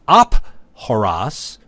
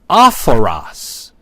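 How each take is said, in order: First: A plain p with a break before the vowel. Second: An aspirated p flowing smoothly into the vowel. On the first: The speaker calls it wrong. "which would cause a break in one's speech" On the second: The speaker calls it right. "which allows smooth enunciation"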